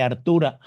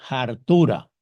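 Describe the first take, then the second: First: Said in the usual way. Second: "Hartura" opening on a strong breathy J sound. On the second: Shown as a demonstration. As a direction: Dominican "Hartura", jota at the start. ("Hartura" con H aspirada como J: jartura) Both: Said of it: "la cambiamos y le ponemos una J".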